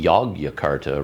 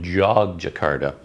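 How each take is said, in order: First: The name begins with a Y sound. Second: The name begins with a J sound. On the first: This is how a North American would read the spelling. "you see a Y, must be Yogyakarta" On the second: This is closer to how the name is really said. "it's got a little bit of a J sound in it"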